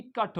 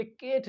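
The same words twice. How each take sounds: First: "कट" with a short 'uh'; "कट" with a short central vowel; right ending demo. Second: "केट" with a long 'ay'; "केट" with a full vowel; wrong ending demo. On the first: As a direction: say "कट" as 'kuht', like "cut". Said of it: "ये भी कट होता है". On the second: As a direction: say "केट" as 'kayt', like "Kate". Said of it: "ये केट नहीं होता है". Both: Shown as a demonstration.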